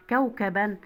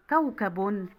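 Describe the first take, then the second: First: كوكبًا ending in a clear -an; تنوين بالفتح. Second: كوكب ending in -un; تنوين بالضم. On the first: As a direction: sound out -an at the end of كوكبًا. (نطق كوكبًا بفتحتين في آخرها) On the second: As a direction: round off كوكب with -un. (نطق كوكب بضمتين في آخرها) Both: Shown as a demonstration. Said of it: "وتنوين بالفتح وبالضم".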